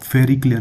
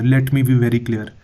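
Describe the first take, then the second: First: Said in the usual way. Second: Very slow, every word of "let me be very clear" weighed and stressed; slow emphatic repeat. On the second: Shown as a demonstration. Teacher repeating slowly to stress the point.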